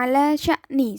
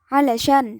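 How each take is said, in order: First: The phrase is said in full. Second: The phrase is said with its ending dropped. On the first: This is the standard form. "bacanya ala sya'ni seperti itu" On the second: This is the colloquial form. "Ketika dibaca amiyah itu menjadi alasyan"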